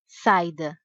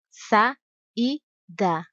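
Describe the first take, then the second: First: The a and i blend into one syllable. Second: The a and i are in separate syllables. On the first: The speaker calls it wrong. "Não se diz" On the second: The speaker calls it right. "Outro exemplo"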